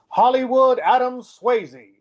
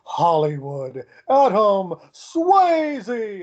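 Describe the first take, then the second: First: The name is said in a plain, generic way. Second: The name is said in a grand, showy way. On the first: It is a generic introduction. "like some people would do" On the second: The person is egotistical, as if his name were in lights. "I would add that ego into my announcement"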